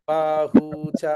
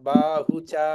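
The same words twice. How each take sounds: First: There is a break after bahu. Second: It flows on without any break. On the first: The speaker calls it wrong. "ఆగడం కూడా వద్దు. ... అలా కాకుండా" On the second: The speaker calls it right. "బాహుచా అనే పలకాలి"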